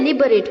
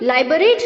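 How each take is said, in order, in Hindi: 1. पहले अक्षर में छोटा 'i' स्वर है। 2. पहले अक्षर में 'eye' स्वर है। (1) "लिबरेट बोलना है" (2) "इसे भी हमें लाइबरेट नहीं बोलना है"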